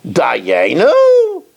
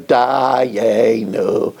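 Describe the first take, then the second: First: Dayenu? said as a doubting question, not a declaration; Dayenu? voiced as a skeptical question; read as a question. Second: Sung statement. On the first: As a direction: ask Dayenu? in wonder, would it be enough. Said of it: "really it should be read Bitmiya". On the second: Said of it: "we sing". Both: Shown as a demonstration.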